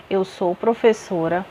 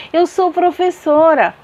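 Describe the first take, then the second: First: Quiet falling statement; softer flat affirmation. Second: High, loud exclamation; emphatic burst. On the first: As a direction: state it plainly, ending low. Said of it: "colocar os sinais". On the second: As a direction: exclaim it much higher and louder. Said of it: "Tá vendo como tudo tem uma diferença". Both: Shown as a demonstration.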